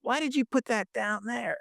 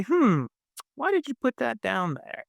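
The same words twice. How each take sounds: First: Imitating a friend's annoyed, higher-pitched snap; mock the friend's irritated question; angry, annoyed. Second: Higher, musing "Hmm" then a gently puzzled question; curious. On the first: Imitating a judgmental friend complaining about the phone holder, annoyed higher tone. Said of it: "in the most angry, like, annoyed way". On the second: Pretend. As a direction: ask it with open, wondering interest. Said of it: "if he was curious, he would say".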